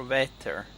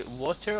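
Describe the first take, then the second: First: WETTER with a short E vowel; pronounced wetter. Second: WATER with an open O vowel; pronounced water. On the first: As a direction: say "wetter" with an open E. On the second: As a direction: say "water" with a rounded O. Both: Shown as a demonstration. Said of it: "Did you say water or wetter".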